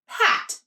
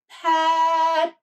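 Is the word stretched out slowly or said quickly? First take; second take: quickly; stretched. First: The word is said quickly and smoothly. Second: The word is stretched out slowly.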